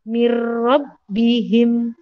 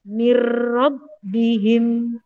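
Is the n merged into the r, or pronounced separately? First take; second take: merged; merged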